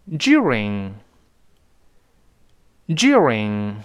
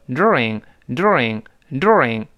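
First: During very slow with a strong dyoo glide, British style. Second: Slow during with plain doo and a curled r, American style. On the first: Teacher reading during the British way. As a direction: draw out the British dyoo sound. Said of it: "我们按照英国的发音再读一下". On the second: Teacher reading during the American way. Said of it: "所以美国人是读成during". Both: Shown as a demonstration.

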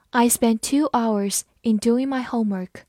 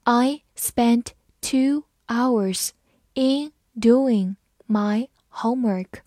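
First: Said in the usual way. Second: Slow, chunked read. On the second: Shown as a demonstration. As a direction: read it slowly for learners. (慢速朗读) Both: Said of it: "我们慢慢来读".

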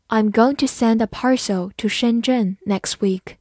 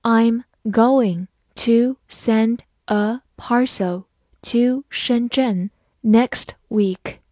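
First: Said in the usual way. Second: Slow, careful classroom read; slow model reading for learners. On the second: Shown as a demonstration. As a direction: read each word slowly and clearly. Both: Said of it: "好，慢读一遍".

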